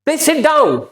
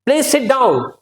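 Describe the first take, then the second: The two takes are said the same way.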